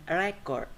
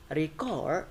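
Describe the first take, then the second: First: Record as noun, REC-ord; first-syllable stress. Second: Record as verb, re-CORD; light ree, then lean on CORD in record; second-syllable stress. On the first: Teacher contrasting noun with verb, record stressed REC-ord. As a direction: hit REC with a short e in record. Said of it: "that is a noun". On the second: Teacher contrasting verb and noun, record stressed re-CORD. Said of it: "that is a verb". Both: Shown as a demonstration.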